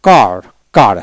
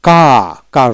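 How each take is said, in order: First: কার with the r sounded; American কার; American car. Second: কা with the r dropped; British কা with no r; British car, soft r. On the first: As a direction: say কার with a clear r at the end. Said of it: "সিএআর". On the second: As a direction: let the r fade out of কা. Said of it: "রটা হালকা হবে কা". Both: Shown as a demonstration.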